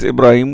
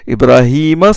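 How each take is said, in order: First: The name ends on the consonant m. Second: The name ends with a final a vowel. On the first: The speaker calls it wrong. "certains disent Ibrahim ou non, c'est c'est faux" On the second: The speaker calls it right. "c'est un complément"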